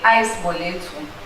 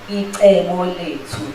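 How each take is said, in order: First: The first word begins like English 'ice'. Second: The first word does not begin like English 'ice'. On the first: "some say ice boletu, because icebo is like ice" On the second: "that is how you pronounce it"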